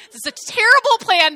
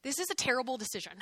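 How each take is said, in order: First: Louder, higher, punching "terrible"; emphatic verdict. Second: Softer, quick aside under the breath; muttered aside. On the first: Preacher judging Jonathan's plan to the congregation, loud emphatic verdict. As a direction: declare "terrible" like an outraged fan. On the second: Preacher judging Jonathan's plan to the congregation, quiet quick aside. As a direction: toss it off quietly before the punchline. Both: Real, not acted.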